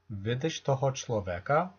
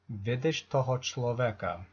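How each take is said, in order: First: The voice rises at the end. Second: The voice falls at the end. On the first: It asks whether you see this man. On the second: It states that you see this man.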